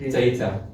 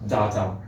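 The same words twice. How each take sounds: First: "data" as DAY-ta, with a long ay and crisp t; "data" said carefully as DAY-ta; real pronunciation. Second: "Data" as DAH-ta, with an open a; "Data" said DAH-ta, low-pitched; variant pronunciation. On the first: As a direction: say "data" with ay in the first syllable. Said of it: "Real pronunciation should be". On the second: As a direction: say "Data" with an ah in the first syllable. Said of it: "You can say data". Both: Shown as a demonstration.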